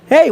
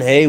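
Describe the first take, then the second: First: It sounds friendly and welcoming. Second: It sounds irritated and unwelcoming. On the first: The worker is displaying what the company wants. "You you get a friendly, welcoming tone" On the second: The worker is showing how stressed they really feel. "you don't hear those expressions"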